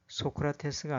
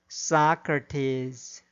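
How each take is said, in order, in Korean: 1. 한국식 음절로 발음합니다. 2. 원어민 영어 소리로 발음합니다. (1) "아니라" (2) "발음해야 합니다"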